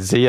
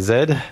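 First: The letter is said as zee, North American style. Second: The letter is said as zed, Australian style.

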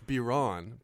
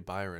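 First: The name is said with a French pronunciation. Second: The name is said with an English pronunciation. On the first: This is how the name really goes. The speaker calls it right. "it's [name]" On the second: This is how other people get the name wrong. The speaker calls it wrong. "but people say Byron"

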